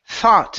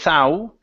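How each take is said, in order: First: The vowel in the middle is an ah sound. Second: The vowel in the middle is an ow sound. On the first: The speaker calls it right. "It's an it's only an ah sound in the middle" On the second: The speaker calls it wrong. "Instead of ow"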